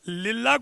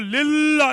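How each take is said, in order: First: The l is said light and thin. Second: The l is said heavy, full-mouthed. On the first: The speaker calls it right. "खिफत के साथ" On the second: The speaker calls it wrong. "नहीं पढ़ेंगे"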